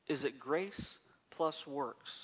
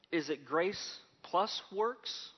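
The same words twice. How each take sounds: First: Slow and softer, "plus" stressed and the line falling at the end; slow soft echo of the question, falling on "plus"; softer falling repeat. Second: Slow, stress on "plus" with the question rising at the end; slow searching question, rising on "plus". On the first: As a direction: repeat "Is it grace plus works?" quietly, letting it drop. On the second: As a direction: ask "is it grace plus works?" slowly, lifting on "plus". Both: Shown as a demonstration.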